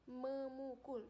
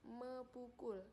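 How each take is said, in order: First: The prefix ends in m before ukul. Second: The prefix me is followed by p. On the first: The speaker calls it right. "jadinya memukul" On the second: The speaker calls it wrong. "bukan mepukul"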